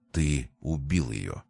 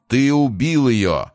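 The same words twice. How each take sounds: First: Slow, low, soft accusation; hushed accusation. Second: Loud, high, drawn-out angry cry; wrathful. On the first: Brother accuses Price of killing her, hushed and slow. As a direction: drop it low and draw it out quietly. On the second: Deformed creature answers Price, accusing him with wrath. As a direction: hurl the accusation slowly in loud anger. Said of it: "с гневом ответило жуткое". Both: A narrator's reading.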